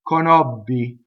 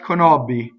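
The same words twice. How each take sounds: First: The double b is strong, held and voiced. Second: The double b is weak, with no bite. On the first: The speaker calls it right. "So correct" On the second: The speaker calls it wrong. "Incorrect, ... has no ... bite to it at all"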